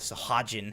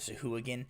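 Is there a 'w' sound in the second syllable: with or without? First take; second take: without; with. First: The second syllable has no 'w' sound. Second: The second syllable has a 'w' sound. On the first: This is a personally chosen pronunciation. The speaker calls it right. "I decided it was pronounced uh, Sahagin" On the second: This is the established pronunciation. The speaker calls it wrong. "they have pronounced it Sahuagin"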